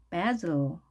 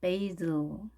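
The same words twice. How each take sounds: First: Basil drawn out as BAZ-l, vowel as in cat; short a. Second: Basil as BAY-zl, stressed first; long ay vowel. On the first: Teacher shows first option, basil as BAZ-l. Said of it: "에 대신에 에이". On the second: Teacher shows second option, basil as BAY-zl. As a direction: say basil with AY in place of short A. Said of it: "이렇게 발음하네요". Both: Shown as a demonstration.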